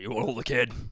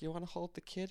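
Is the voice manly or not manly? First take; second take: manly; not manly. First: It is said in a manly voice. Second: It is said in a voice that is not manly.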